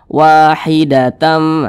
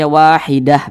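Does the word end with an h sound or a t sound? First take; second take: t sound; h sound. First: The word ends with a t sound and nasal. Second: The word ends with an h sound. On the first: The reading continues to the next word. "kalau misalkan kita tidak berhenti di sini, kita lanjutkan ke bawah, maka kita baca wahidatam" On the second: The reading stops at this word. "Ini kita berhenti di tepat di huruf ta marbutoh, kita baca wahidah begitu"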